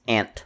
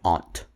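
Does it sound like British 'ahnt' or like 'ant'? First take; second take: ant; ahnt. First: It sounds like the word ant. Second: It is said with a British 'ahnt' vowel.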